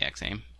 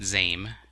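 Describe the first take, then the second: First: It begins with the letter name 'ex'. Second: It begins with a plain 'z' sound. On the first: The speaker calls it right. "It's definitely X AIM" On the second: The speaker calls it wrong. "not ZAIM, as some would think"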